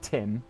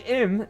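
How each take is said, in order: First: The name is said with the first T. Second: The name is said without the first T. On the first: The speaker calls it right. "I would still say Tim" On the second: The speaker calls it wrong. "my name is Im"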